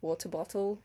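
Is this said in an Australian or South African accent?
South African. It is said with a South African accent. "which I guess is the South African kind of way"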